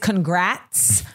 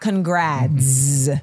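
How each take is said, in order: First: The word is said with a t sound. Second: The word is said with a d sound. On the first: The speaker calls it right. "A T-T" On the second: The speaker calls it wrong. "not a D"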